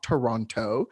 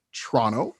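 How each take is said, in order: First: Toronto in three full syllables, "tuh-RON-toe"; over-careful pronunciation. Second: Toronto run down to "TRAH-no"; local pronunciation. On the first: Showing how not to say it, slow careful Toronto. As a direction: sound the second T in Toronto, slowly. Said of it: "not Toronto". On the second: Giving the right version of the city's name, clipped-T local Toronto. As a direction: drop the second T in Toronto. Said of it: "That's how you say Toronto". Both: Shown as a demonstration.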